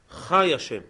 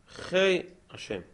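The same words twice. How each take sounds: First: The first word has an open 'ah' vowel. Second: The first word has an 'ei' vowel. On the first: His life is not separate from himself. The speaker calls it right. "לכן אנחנו אומרים חי השם בפתח" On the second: Life is something that belongs to him. The speaker calls it wrong. "ואין אומרים חי השם"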